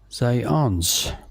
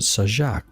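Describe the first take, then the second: First: The surname is said with Polish pronunciation. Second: The surname is said with an anglicized pronunciation. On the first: "is the way it's pronounced in Polish" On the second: "I would pronounce it Sajak"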